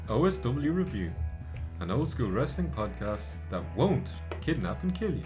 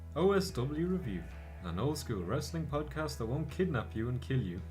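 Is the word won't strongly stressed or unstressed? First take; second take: stressed; unstressed. First: The word won't is strongly stressed. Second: The word won't gets no special stress.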